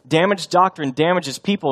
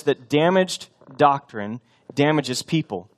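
First: Said in the usual way. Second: "damaged doctrine damages people" spoken slowly, each word weighted; slow, stressed dictation. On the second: Shown as a demonstration. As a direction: lay it out slowly, word by word, for note-taking. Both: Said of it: "something I want us to write down".

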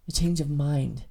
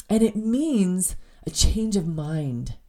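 First: "A change of mind" repeated lower and softer, each word weighted; quiet emphatic echo. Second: Said in the usual way. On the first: Shown as a demonstration. Repeating the meaning to listeners, quiet emphasis. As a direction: let "change of mind" land softly. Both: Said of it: "repeats definition".

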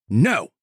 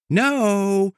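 First: A hard, scolding "No."; harsh no. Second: Lilting no up high; a no said like praise; sweet high no. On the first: Showing owners saying no harshly, scolding the dog. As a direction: snap the no like a frustrated owner. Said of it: "They say it harshly". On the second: Showing nobody says no sweetly, lilting high. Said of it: "Nobody says no". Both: Shown as a demonstration.

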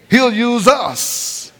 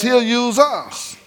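First: Drawn out, lingering on each word; preacher slows to stress the promise; slow emphasis. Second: Slow emphasis. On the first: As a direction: let it sink in slowly. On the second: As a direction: say it slow and settled. Preacher repeats line. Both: Acted.

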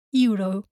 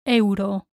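First: Euro as YOO-ro; English pronunciation. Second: Euro as EH-oo-ro; Spanish pronunciation. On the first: Teacher shows the tempting mistake, English YOO-ro for Euro. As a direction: start Euro with an English "you". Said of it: "say them like in English". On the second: Teacher corrects for learners, Spanish EH-oo-ro for Euro. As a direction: separate E and U sounds in Euro. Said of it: "Remember to pronounce the E". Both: Shown as a demonstration.

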